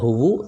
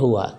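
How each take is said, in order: First: The word ends in a u vowel. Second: The word ends in an a vowel. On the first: The speaker calls it wrong. "tidak ada huwu" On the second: The speaker calls it right. "selalu fathah"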